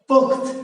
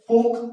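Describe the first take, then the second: First: The word ends on a bare t consonant. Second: The word ends with a final o vowel. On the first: The final letter is written with a hasanta. "তয়ে হস দিলে মানে কি পুখ্ত, না কি পখ্ত" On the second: The final letters are written as a joined conjunct. "যুক্ত ব্যঞ্জনের শেষের ধ্বনিটা ওকারান্ত উচ্চারিত হয়"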